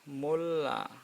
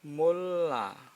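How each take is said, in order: Both takes have the same delivery.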